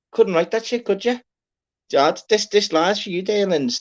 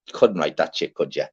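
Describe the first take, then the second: First: Couldn't write that shit said in a far higher, squeaky put-on voice; squeaky mock amazement. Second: Said in the usual way. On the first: Host marvelling at a Quavers pun in a high squeak.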